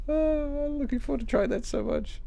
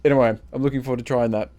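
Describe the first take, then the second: First: High, soft lovestruck sigh; dreamy longing. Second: Said in the usual way. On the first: Pretend. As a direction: swoon over it softly. Repeats dreamily after sigh.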